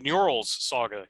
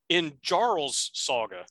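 First: The name starts directly with the 'nj' sound. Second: The name starts with an added 'in' sound. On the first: "Instead of Njarl's Saga" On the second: "I'm going to pronounce it as they pronounced it in the episode"

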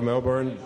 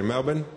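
First: Melbourne is said in a non-local way. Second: Melbourne is said the local Australian way. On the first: The speaker calls it wrong. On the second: The speaker calls it right.

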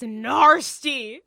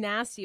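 First: The first vowel has an r sound after it. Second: The first vowel has no r sound after it. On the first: Something is even more unpleasant. "but like it's narsty. N-A-R-S-T-Y" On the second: Something is unpleasant. "it's like saying nasty"

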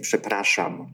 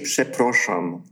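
First: The second vowel sounds like 'a'. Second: The second vowel sounds like 'o'. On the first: This is how the word should be said. The speaker calls it right. "she's supposed to say przepraszam" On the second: This is how the singer says it. The speaker calls it wrong. "She says przeproszam"

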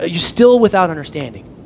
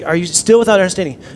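First: It is said with a sarcastic, exasperated tone. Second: It is said in a plain, sincere tone. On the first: The listeners are being mocked for not understanding. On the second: The question is asked without shaming anyone.

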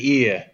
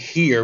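First: The word begins without an h sound. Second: The word begins with an h sound. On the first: "We would say ear" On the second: "We wouldn't say here"

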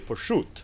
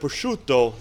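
First: It is said Neapolitan style, final vowel dropped. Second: It is said in standard Italian, final vowel kept.

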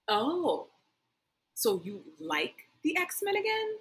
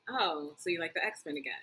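First: It is said in a mocking, accusing way. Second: It is said in a plain, flat way. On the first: A teasing accusation of switching sides. The speaker calls it right. "the proper way to say it" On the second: A simple observation. The speaker calls it wrong. "when you said it, you were like"

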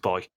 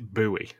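First: The word is said the non-American way. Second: The word is said the American way. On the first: This is how the word should be said. "you're wrong. Yeah. It's boy" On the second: This is how people in America say it. "They pronounce it buoy"

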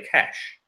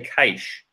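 First: The word sounds like 'cash', the money word. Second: The word does not sound like 'cash'. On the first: This is the official pronunciation. The speaker calls it right. "you pronounce it cash, like money" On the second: This is how Australians say it. The speaker calls it wrong. "in Australia, they say cache"

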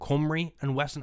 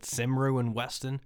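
First: The name is said with its Welsh pronunciation. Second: The name is read as an English spelling guess. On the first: The name has now been heard from someone who says it properly. The speaker calls it right. "now where I can actually correct it" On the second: The name was only ever seen written, never heard. The speaker calls it wrong. "I took a guess at the thing I'd only read on signs"

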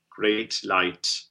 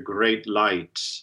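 First: The T of great is fully released with aspiration. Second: The T of great is barely heard. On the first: The speaker calls it right. "Better if it's fully articulated, that aspirate T" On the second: The speaker calls it wrong. "to minimize that T so that we hear great light"

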